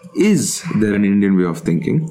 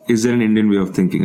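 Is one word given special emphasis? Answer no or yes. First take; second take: yes; no. First: One word in the sentence gets special emphasis. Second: The sentence is read plainly without special emphasis. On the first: "the first one is" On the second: "So the question plainly reads"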